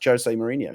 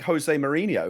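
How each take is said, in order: First: Jose begins with a hard J sound. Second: Jose begins with a sound other than J. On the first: The speaker calls it right. "it's actually pronounced" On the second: The speaker calls it wrong. "thinking I was being clever by by saying"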